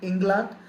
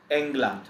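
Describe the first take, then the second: First: England begun with an "ih" sound, as Ingland; England mispronounced with a short i up front; wrong pronunciation. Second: England begun with an "eh" sound, falling at the end; England with a pure e, never an i; German pronunciation. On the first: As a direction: say England the English way, "ING-lund", tune rising. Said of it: "We don't say England". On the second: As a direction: say England the German way, "ENG-lant". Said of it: "It is my A". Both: Shown as a demonstration.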